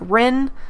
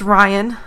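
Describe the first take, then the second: First: The name is said like 'Rin'. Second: The name is said like 'Ryan'. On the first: This is how most people read the name. The speaker calls it wrong. "most people think it's like Rin" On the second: This is how the owner of the name says it. The speaker calls it right. "but it's Ryan as far as I'm concerned"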